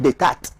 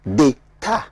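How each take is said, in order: First: D'état with the last T pronounced; d'état said as spelt, closing on T; final T sounded. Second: D'état ending on an open "ta"; slow d'état with no T at the end; silent final T. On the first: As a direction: say d'état as "day-TAT", ending on a hard T. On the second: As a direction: say d'état slowly as "day-TA", last T silent. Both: Shown as a demonstration. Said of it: "the last word is not pronounced".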